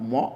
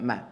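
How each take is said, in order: First: The vowel sounds heavy and rounded. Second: The vowel sounds light and open. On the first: The speaker calls it wrong. "not more" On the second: The speaker calls it right. "the fatha on the meme gets to be light"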